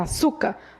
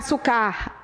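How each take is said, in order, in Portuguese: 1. A sílaba tônica está na penúltima sílaba. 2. A sílaba tônica está na última sílaba. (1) "A sílaba tônica é a penúltima" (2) "Não é"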